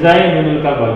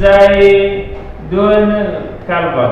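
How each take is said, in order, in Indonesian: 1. Vokal 'i' pendek menghubungkan kedua kata. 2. Kedua kata tersambung tanpa vokal penghubung. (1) "dipilih baris yang paling ringan, yaitu baris bawah" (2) "kan sulit, susah membacanya"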